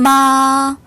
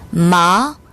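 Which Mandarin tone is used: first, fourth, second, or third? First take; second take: first; second. First: The pitch stays high and level. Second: The pitch rises from mid to high. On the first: It means mother. "일성으로 발음하면 엄마란 뜻이고요" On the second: It means numb. "이성"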